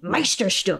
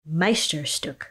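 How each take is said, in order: First: The word is said angrily. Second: The word is said calmly.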